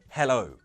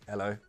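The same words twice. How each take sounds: First: The h at the start is pronounced. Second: The h at the start is dropped.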